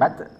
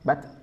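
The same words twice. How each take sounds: First: The final t ends with an echoing bounce. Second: The final t ends cleanly without a bounce. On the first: The speaker calls it wrong. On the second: The speaker calls it right.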